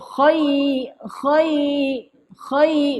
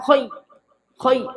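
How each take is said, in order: First: The syllable is said softly and smoothly. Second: The syllable is said hard and abruptly. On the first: The speaker calls it right. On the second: The speaker calls it wrong. "Jangan khai khai keras"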